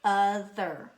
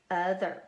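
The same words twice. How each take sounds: First: "Other" with the first syllable hit hard and drawn out; stress on first syllable. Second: Said in the usual way. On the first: Shown as a demonstration. Teacher showing the accented syllable, "Other" stressed on its first half. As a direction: punch the first syllable of "Other", stretching the word. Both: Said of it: "is our accented syllable".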